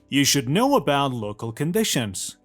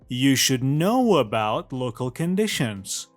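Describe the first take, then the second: First: The words run together with linking sounds between them. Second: The words run together with linking sounds between them.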